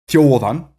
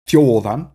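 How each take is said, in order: Both takes have the same delivery.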